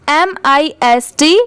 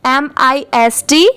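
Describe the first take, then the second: No difference in how they are said.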